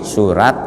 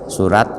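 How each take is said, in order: No difference in how they are said.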